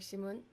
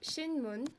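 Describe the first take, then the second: First: It is said quickly, with the syllables run together. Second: It is said slowly, syllable by syllable. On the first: "when you say it fast, it's more like Shimun" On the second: "if you can read it out"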